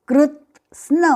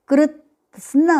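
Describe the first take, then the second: Both takes have the same delivery.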